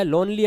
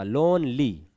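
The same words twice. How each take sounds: First: Said in the usual way. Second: लोनली in two beats, लोन-ली; broken into syllables. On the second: Shown as a demonstration. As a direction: split लोनली after लोन. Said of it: "हम इसको दो बार में पढ़ रहे हैं".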